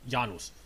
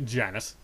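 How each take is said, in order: First: The name is pronounced the Greek way. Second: The name is pronounced the American way. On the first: "If we're going Greek mythology" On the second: "in American way"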